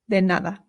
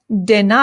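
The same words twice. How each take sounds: First: The d is soft and light. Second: The d is hard, like English. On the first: The speaker calls it right. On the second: The speaker calls it wrong.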